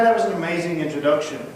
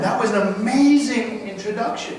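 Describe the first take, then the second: First: It is said flatly and insincerely. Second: It is said warmly and sincerely. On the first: Criticism is about to follow the praise. The speaker calls it wrong. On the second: The praise is genuinely meant. The speaker calls it right.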